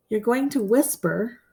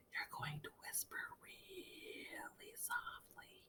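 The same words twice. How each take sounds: First: Said in the usual way. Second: Soft unvoiced whisper, a touch slow. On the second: Shown as a demonstration. Teacher showing students how to read aloud, whispering. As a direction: whisper it so no one nearby hears.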